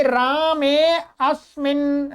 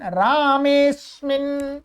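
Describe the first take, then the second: First: रामे अस्मिन slow, with अ sounded; unjoined words. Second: रामेस्मिन drawn out as one word; joined, silent अ. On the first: Teacher giving words before sandhi, unjoined. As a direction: say रामे, then अस्मिन with its opening अ. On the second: Teacher showing the sandhi result, joined with silent अ. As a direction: run long रामे straight into स्मिन. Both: Shown as a demonstration. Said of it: "अ है वो silent हो जाता है".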